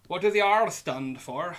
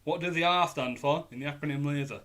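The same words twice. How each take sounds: First: Rolled pirate R on R, louder. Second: Said in the usual way. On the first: Shown as a demonstration. Quizmaster trying a pirate R for his team. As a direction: growl the R in R like a pirate. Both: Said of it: "I feel like I have to say R like a pirate".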